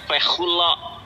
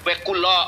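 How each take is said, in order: First: The middle consonant is a soft fricative kh. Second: The middle consonant is a hard stop k. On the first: The speaker calls it right. "kafnya nggak ada dages, dibacanya Wekulo" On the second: The speaker calls it wrong. "katanya. Wekulo, mana ada bacanya Wekulo"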